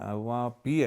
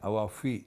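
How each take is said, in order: First: The second word begins with a p sound. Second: The second word begins with an f sound. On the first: The speaker calls it wrong. "അത് ഔവാ പി അല്ല" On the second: The speaker calls it right. "ഔവാ ഫി ഫി ആണ്"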